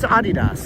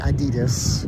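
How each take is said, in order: First: The name is said the German way. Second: The name is said the common English way. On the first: "it's Adidas. That's the name. It's a German name" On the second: "people say Adidas"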